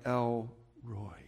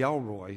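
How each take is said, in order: First: The name is said slowly, in two parts. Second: The name is said quickly, run together. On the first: The speaker calls it right. "You don't want to say it too quickly" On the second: The speaker calls it wrong. "if you say it quickly, it'd be Elroy"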